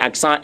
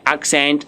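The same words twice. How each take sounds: First: Accent said the French way, ak-sahn; nasal ending on accent, silent t; French pronunciation. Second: Accent said the English way, AK-sent; English pronunciation. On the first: Teacher gives the French term, accent as ak-sahn. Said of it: "is the accent in French". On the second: Teacher explains the sign to learners, accent as English AK-sent. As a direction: sound the "ent" and final t in accent. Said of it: "accent in French". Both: Shown as a demonstration.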